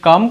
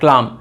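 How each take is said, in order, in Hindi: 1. इस शब्द में L की ध्वनि नहीं है। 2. इस शब्द में L की ध्वनि है। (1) "এই যে এলটা উচ্চারণ হয় না" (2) "তারা এখানে কি উচ্চারণ করবে? ক্লাম উচ্চারণ করবে"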